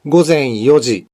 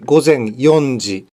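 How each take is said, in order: First: No 'n' sound comes before 'ji'. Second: An 'n' sound comes before 'ji'. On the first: The speaker calls it right. "Yang benar, gozen yoji" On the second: The speaker calls it wrong. "bukan gozen yonji"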